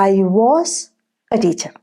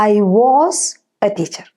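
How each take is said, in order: Both takes have the same delivery.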